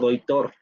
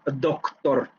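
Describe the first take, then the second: First: An i vowel sound replaces the consonant before t. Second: A full hard k is heard before the t. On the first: The speech is very relaxed and dialectal. "o doitor" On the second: The speech is very careful and forced. "En una habla muy cuidada y muy forzada, podríamos decir doctor"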